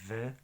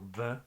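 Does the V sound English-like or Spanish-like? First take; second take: English-like; Spanish-like. First: The V is said with teeth on the lip. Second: The V is said the Spanish way. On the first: The speaker calls it right. "creo que es más como V, como en inglés" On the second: The speaker calls it wrong. "y no tanto como V, como en español"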